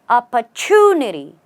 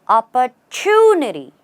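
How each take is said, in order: No difference in how they are said.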